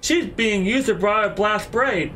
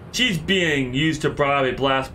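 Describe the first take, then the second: First: It is said in a put-on character voice. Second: It is said in the speaker's normal voice.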